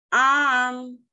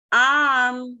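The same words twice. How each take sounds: First: The vowel is long and drawn out. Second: The vowel is long and drawn out.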